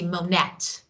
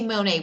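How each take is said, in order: First: The word ends with a T sound. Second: The word ends without a T sound. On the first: The speaker calls it wrong. "we don't say Monette" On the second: The speaker calls it right. "we say Monet"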